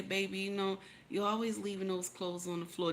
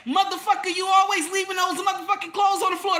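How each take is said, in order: First: Soft sweet voice. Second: Higher, louder angry shout; angry yell. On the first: Wife gently telling husband in bed about the clothes, soft and tender. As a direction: lower and much softer, tender and gentle. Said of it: "Did you hear my voice?". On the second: Wife yelling at husband about clothes, angry shout. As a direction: yell at him with contempt. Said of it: "Don't get up there and say". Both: Shown as a demonstration.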